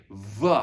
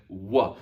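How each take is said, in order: First: Voiced vuh, teeth on lip; wrong V sound. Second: Short wuh with rounded lips; Roman W sound. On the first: Teacher showing the tempting mistake, buzzed vuh. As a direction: say "V" as a buzzing vuh. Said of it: "your brain is going to want to say". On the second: Teacher showing what Romans said, rounded wuh. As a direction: say "W" as wuh, not its name. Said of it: "They only said W". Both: Shown as a demonstration.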